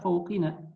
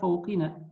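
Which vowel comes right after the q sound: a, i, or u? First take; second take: i; i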